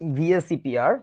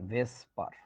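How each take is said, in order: First: It is spelled out letter by letter. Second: It is pronounced as a single word. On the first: The speaker calls it right. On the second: The speaker calls it wrong.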